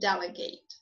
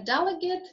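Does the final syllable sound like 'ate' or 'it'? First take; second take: ate; it. First: The final syllable sounds like 'ate'. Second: The final syllable sounds like 'it'. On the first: The word is used as a verb. "whereas for verbs as ate" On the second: The word is used as a noun. "for nouns and adjectives is pronounced as it"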